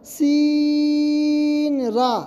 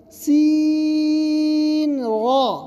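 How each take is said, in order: First: The mistaken thin را; wrong thin ra. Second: سین را with را said full and heavy, drawn long; the correct heavy را; correct thick ra. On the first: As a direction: say را thin, as not to. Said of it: "اس کو اس طرح نہ پڑھیں". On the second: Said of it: "موٹا پڑھیں گے". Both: Shown as a demonstration.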